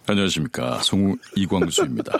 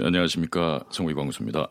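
First: It is said in a dramatic announcer voice. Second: It is said in a plain conversational voice.

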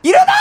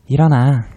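First: It is shouted loudly and forcefully. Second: It is said softly and gently.

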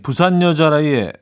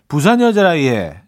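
First: It is read in a plain, neutral way. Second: It is said with a Busan dialect intonation.

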